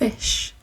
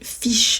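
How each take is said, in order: First: The vowel sounds like an English short i. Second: The vowel sounds like a French i. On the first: The speaker calls it right. "mais en fait c'est fish" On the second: The speaker calls it wrong. "on dirait fish comme j'ai dit tout à l'heure"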